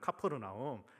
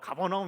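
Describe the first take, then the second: First: The name is said in the local form. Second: The name is said in the familiar Korean form. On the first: This is how the local people pronounce it. The speaker calls it right. "카퍼르나움으로 이제 걔네들이 발음을 하고 있더라고요" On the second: The bus driver did not understand it. The speaker calls it wrong. "가버나움 이러니까 못 알아들은 거예요"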